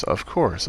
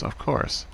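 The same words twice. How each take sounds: First: Said in the usual way. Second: Breathless whisper, trailing off. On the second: Acted. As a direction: let it die into a whisper. Repeating it, fading out.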